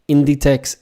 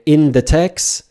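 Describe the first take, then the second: First: It sounds like the single word 'Inditex'. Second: It sounds like the three words 'in the text'. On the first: The speaker calls it right. "is the correct pronunciation, not in the text" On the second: The speaker calls it wrong. "that's a no-no"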